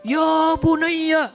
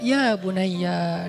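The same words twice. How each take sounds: First: It is declaimed loudly like a formal sermon. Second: It is said softly and tenderly, like a caress.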